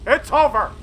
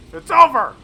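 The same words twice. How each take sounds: First: Higher and louder, gleeful; excited call. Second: 'over' yelled much higher and louder; victory shout. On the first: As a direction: announce the win with glee. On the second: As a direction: roar it out as the win lands. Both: Real, not acted. Tank wins the fight.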